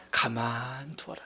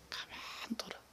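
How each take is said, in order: First: Slow, low, gentle voice of the master; calm master's command. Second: A breath-only whisper of the master's words; whispered command. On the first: Preacher voicing the master telling servants, slow and low. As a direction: let it settle, unhurried and low. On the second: Preacher voicing the master to servants, whispered. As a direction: hush it like a secret. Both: Retold or imitated. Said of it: "주인 이르되".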